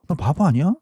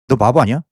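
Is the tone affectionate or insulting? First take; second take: affectionate; insulting. First: The tone is warm and affectionate. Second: The tone is harsh and insulting. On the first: The speaker is worried about and fond of the listener. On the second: The speaker is cursing at the listener.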